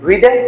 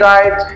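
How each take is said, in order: First: The vowel sounds like 'ee', final e voiced. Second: The vowel sounds like 'eye', final e silent. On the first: The speaker calls it wrong. "So this is not রিডে" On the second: The speaker calls it right. "R I D ই right"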